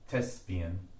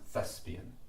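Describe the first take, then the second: First: The word begins with a plain t sound. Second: The word begins with a voiceless th sound. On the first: The speaker calls it wrong. "without the chupchik, it would just be, it would just, this would literally say thespian" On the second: The speaker calls it right. "but it's thespian"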